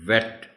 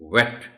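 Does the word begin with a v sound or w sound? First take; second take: v sound; w sound. First: It begins with a v sound. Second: It begins with a w sound. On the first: The speaker calls it wrong. "अगर वी होता तो हम कहते वेट" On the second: The speaker calls it right. "डब्ल्यू है तो हम कहेंगे वेट"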